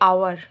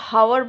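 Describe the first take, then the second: First: The word begins with a vowel sound. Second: The word begins with an h sound. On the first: The speaker calls it right. "আমরা বলছি আওয়ার, ... এইচটা হচ্ছে silent" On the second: The speaker calls it wrong. "তখন কিন্তু হাওয়ার বলছি না"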